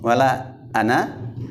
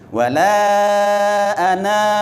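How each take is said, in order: First: The final vowel of ana is short. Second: The final vowel of ana is drawn out. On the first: The speaker calls it right. "jangan dipanjangin" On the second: The speaker calls it wrong.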